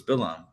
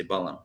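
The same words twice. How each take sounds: First: "Bilam" said the Hebrew way, with an i in the first syllable; Hebrew pronunciation. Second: "Balaam" said the English way, with an open first syllable; English form of the name, "Balaam"; English pronunciation. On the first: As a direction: say "Bilam" as bee-LAHM. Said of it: "Well, in Hebrew, it's Bilam". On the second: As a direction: say "Balaam" as BAH-lum. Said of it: "In English, they say Balaam". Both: Shown as a demonstration.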